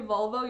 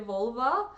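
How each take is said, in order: First: The word ends with an o sound. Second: The word ends with an a sound.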